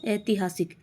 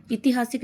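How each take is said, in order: First: ऐतिहासिक with ai at the start; correct form. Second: ऐतिहासिक with an i at the start; wrong form. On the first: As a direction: say ऐतिहासिक as ai-ti-haa-sik. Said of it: "बड़ी ए आएगी". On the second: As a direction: say ऐतिहासिक as i-ti-haa-sik. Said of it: "नहीं होता है". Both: Shown as a demonstration.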